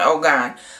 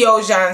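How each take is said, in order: First: The middle consonant is a hard g sound. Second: The middle consonant is a soft j sound. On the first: The speaker calls it wrong. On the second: The speaker calls it right.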